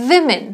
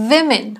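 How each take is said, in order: The two takes are said the same way.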